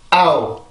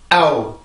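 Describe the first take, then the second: First: It is said with tense, engaged vocal cords. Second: The same.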